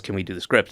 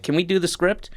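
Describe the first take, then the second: First: Said in the usual way. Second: High-pitched quoted question; imitated asking. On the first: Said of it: "they're reading off a script". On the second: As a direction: lift the voice into a querying imitation. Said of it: "they were like".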